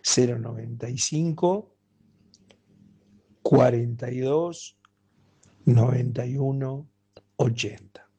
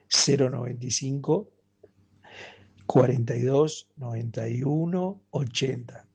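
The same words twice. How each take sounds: First: It is said slowly. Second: It is said at normal speed.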